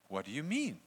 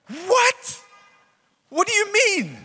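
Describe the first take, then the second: First: Said in the usual way. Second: Much higher and louder, incredulous; shocked exclamation. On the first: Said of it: "Nicodemus didn't go". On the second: Retold or imitated. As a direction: shriek it in total disbelief. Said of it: "probably something more like that".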